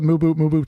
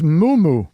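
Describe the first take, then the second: First: The B sound is clearly pronounced. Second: The B sound is left silent. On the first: "You prefer Mubu Mubu to the silent B" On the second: "It's a silent B"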